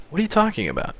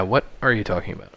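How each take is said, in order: First: Acted question, pitched well up; high character voice asking what's meant; high-voiced questioning. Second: Said in the usual way. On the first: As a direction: ask it high, falling away at the end. Character line, then own echo.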